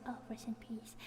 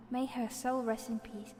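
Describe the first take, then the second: First: Soft reverent whisper; hushed whispered blessing. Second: Said in the usual way. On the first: Real, not acted. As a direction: breathe it out like a little prayer.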